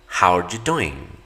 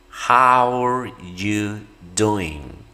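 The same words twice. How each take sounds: First: The phrase is said quickly. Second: The phrase is said slowly. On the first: "vamos a ir subiendo nuestra velocidad" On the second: "lo vamos a hacer de manera lenta"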